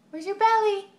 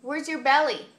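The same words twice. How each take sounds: First: Put-on "belly" sung high and loud for baby; excited baby talk. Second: Said in the usual way. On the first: Shown as a demonstration. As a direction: lift "belly" up high and bright. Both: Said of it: "repeats it higher to baby".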